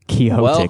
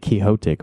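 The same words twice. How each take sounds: First: The x is said as a ks sound. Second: The x is said as an h sound. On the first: "it's like with an X like that" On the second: "I've never heard anyone say Quixotic, but that's like how you say it"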